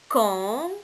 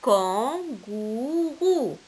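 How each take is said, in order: First: "Kangourou" split into kan, gou, rou with long gaps; syllable by syllable. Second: "kangourou" joined up, very slowly, falling at the end; slow, connected "kangourou" as the answer; whole word blended. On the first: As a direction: sound out each syllable of "Kangourou" separately. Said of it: "se compose de trois syllabes". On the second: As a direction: blend "kangourou" into one long, stretched word. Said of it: "c'est le mot". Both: Shown as a demonstration.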